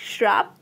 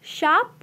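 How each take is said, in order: First: श्राप with an added r after the sh; overcorrect pronunciation. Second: Said in the usual way. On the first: Shown as a demonstration. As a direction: say श्राप as "shraap", not "shaap". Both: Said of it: "सरल शब्दों के स्थान पर कठिन".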